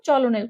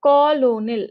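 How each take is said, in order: First: The word begins with a ch sound. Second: The word begins with a k sound. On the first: The speaker calls it wrong. "চলোনেল করবা না" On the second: The speaker calls it right. "এভাবে উচ্চারণ করবা"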